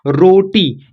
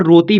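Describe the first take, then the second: First: रोटी with tongue curled back; hard retroflex t in रोटी. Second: रोती with tongue on the teeth; dental t. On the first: Teacher reading the word to learners, रोटी with retroflex t. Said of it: "रोती भी बोल सकते हैं". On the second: Teacher offering learners another reading, रोती with dental t. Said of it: "भी बोल सकते हैं". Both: Shown as a demonstration.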